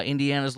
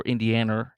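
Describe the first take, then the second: First: Said in the usual way. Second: "Indiana" ending in an -er sound; playful pronunciation. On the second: Shown as a demonstration. Host giving his pet version of the state, "Indiana" said as "Indianer". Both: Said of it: "as I like to say".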